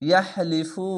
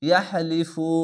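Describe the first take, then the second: Both takes have the same delivery.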